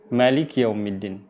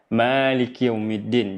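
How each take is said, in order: First: The vowel after the m is short. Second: The vowel after the m is long. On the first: This is the reading of five of the seven reciters. "tanpa ada alif. Di mimnya tidak ada alif" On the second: This is the reading of two of the seven reciters. "membacanya dengan alif, ... Jadi dua harakat"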